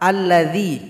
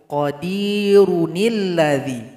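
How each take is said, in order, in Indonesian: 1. Kata ini dimulai baru dengan bunyi 'a' di awal. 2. Kata ini disambung dengan kata sebelumnya melalui 'nil'. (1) "Cara baca pertama, alladzi ketika memulai" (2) "Cara baca kedua digabung"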